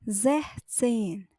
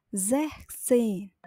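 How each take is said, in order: Both takes have the same delivery.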